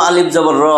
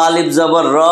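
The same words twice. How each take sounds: The two takes are said the same way.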